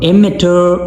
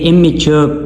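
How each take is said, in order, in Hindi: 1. यह ब्रिटिश उच्चारण में बोला गया है। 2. यह अमेरिकन उच्चारण में बोला गया है। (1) "ब्रिटिश प्रोनाउंसिएशन है" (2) "अमेरिकन ये इमेच्योर प्रोनाउंस होता है"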